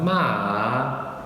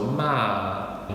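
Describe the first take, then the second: First: The pitch dips down then rises again. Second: The pitch falls through the syllable. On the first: "starts high, dips down, and then goes back up" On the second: "the last tone is a descending tone"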